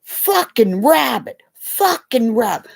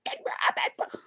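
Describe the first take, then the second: First: Mock toddler shouting the word; little son's half-hearted loud chant; child yelling. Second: Hushed whisper of the same words; whispering the toddler's words. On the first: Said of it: "All of a sudden he goes". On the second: Retold or imitated. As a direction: breathe it out under a hand. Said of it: "trying to hold my kid's mouth".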